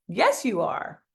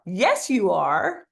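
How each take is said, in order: First: Said in the usual way. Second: Slow, drawn-out, rising; slow emphatic yes. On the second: Shown as a demonstration. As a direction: stretch it out with conviction. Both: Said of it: "repeat after me".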